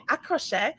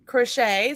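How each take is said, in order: First: "à crochet" as in French, a kro-shay; French pronunciation. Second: Said in the usual way. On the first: Shown as a demonstration. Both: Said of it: "You have to say it like that 'cause it's French".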